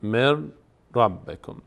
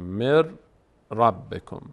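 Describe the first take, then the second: The two takes are said the same way.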